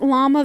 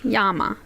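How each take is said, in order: First: The word begins with an L sound. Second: The word begins with a Y sound. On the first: "It says Mount Llama Vista" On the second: "But two L's make a Y"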